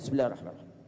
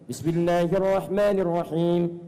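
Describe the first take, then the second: First: It is recited quietly under the breath. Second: It is recited aloud in a full voice. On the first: "Kedua disirkan" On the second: "Satu dijaharkan"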